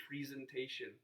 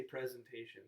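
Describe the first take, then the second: First: "presentation" with a long E, PREE-zen-TAY-shun; disliked pronunciation. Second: "presentation" with a short E, PREZ-en-TAY-shun; preferred pronunciation. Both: Shown as a demonstration. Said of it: "you mean to say presentation".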